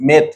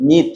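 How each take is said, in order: First: "মেথ" with an open e vowel; wrong pronunciation. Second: "মিথ" with a long ee vowel; correct pronunciation. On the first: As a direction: say "মেথ" with e as in "met", the mistake to avoid. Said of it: "আবার মেথ উচ্চারণ করো না". ("মেথ", এ-কার দিয়ে ভুল উচ্চারণ) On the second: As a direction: model "মিথ" with ee, not e. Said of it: "এটা উচ্চারণ করতে হবে কি?". ("মিথ", ই-কার দিয়ে সঠিক উচ্চারণ) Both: Shown as a demonstration.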